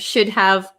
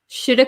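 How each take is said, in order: First: The word have is pronounced in full. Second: Have is reduced to a short vowel. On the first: "instead of should have" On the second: "we often say shoulda"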